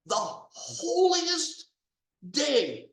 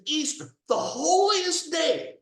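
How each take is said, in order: First: "the holiest... day", dragged out each word; slow stressed repeat. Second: Indignant cry, loud and high; outraged shout. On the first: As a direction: stretch out "holiest" high and slow, then land "day". Repeating it, drawn out. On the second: Outraged at Easter declaration. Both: Real, not acted.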